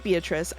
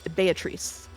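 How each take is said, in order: First: The name is pronounced with English sounds. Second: The name is pronounced with Italian sounds. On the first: This is how the other person had been saying it. "since you were saying Beatrice" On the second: This is the pronunciation the source language uses. "the Japanese pronunciation is based on Italian pronunciation, which I checked ahead of time and is Beatrice"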